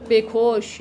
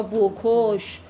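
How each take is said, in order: First: Slow بکش as "bekosh", e in first syllable; kasre pronunciation. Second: Slow بکش as "bokosh", o in first syllable; zamme pronunciation. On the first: Teacher explaining city dialects, slow بکش with e: "bekosh". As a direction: draw out بکش, starting "be". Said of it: "قمیا بیشتر با کسره". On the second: Teacher explaining city dialects, slow بکش with o: "bokosh". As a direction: draw out بکش, starting "bo". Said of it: "بعضیا با ضمه". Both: Shown as a demonstration.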